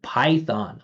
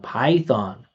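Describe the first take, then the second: First: The first vowel sounds flat with little resonance. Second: The first vowel sounds full and resonant. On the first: The speaker calls it wrong. "there's no feeling of the vowel sound because there's no vibration or resonance" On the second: The speaker calls it right. "Vibration and resonance"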